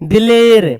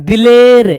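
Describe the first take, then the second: No difference in how they are said.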